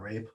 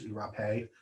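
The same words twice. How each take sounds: First: It is said as one syllable, like English. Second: The final E is sounded as a second syllable. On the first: The speaker calls it wrong. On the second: The speaker calls it right.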